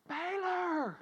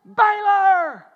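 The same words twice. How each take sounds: First: Mock holler without the volume; held-back holler. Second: Loud, high call to the dog; big drawn-out shouted name; full-out holler. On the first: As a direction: call the dog, holding the volume back. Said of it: "So I holler". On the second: Retold or imitated. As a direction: holler the name across the yard. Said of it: "this morning I heard".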